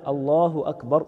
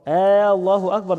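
First: The opening vowel of the first word is short. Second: The opening vowel of the first word is drawn out. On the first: It is a plain statement. The speaker calls it right. "ينطقها بلا مد" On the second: It turns the phrase into a question. The speaker calls it wrong. "ده كده استفهام"

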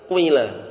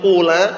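First: The first vowel is i mixed with u. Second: The first vowel is a pure u sound. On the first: "mencampur kasrah dengan sedikit daripada suara dhammah" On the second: "enggak dhammah murni qula"

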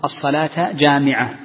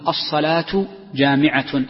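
First: The words end with an 'a' vowel. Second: The words end with a 'u' vowel. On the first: Both words are in the accusative case. "يصح أن تنصبها" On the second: The phrase is a subject and predicate. "ويصح أن ترفع الكلمتين"

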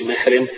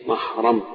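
First: The first syllable lacks an open 'a' vowel. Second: The first syllable has an open 'a' vowel. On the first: The speaker calls it wrong. "ما تقولش محرم" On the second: The speaker calls it right. "بفتح الميم الاولى دي"

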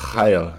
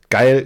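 First: It is said with a Dutch accent. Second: It is said with a plain German accent.

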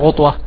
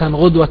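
First: The middle consonant is an emphatic t sound. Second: The middle consonant is a plain d sound. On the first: The speaker calls it wrong. "بالطاء بلهجة بعض البلدان غطوة" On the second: The speaker calls it right. "غدوة مش غطوة"

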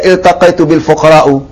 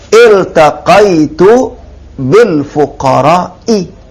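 First: The last word ends with a u vowel. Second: The last word ends with an i vowel. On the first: The poor people are marked as a subject. The speaker calls it wrong. "Jangan dibaca ... Salah" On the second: The poor people follow a preposition. The speaker calls it right. "tanda jarnya kasrah"

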